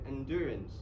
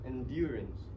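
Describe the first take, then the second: First: It is said without a y sound. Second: It is said with a y sound. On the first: "There is no ear sound" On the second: "in British, British accent, the ear sound is appear"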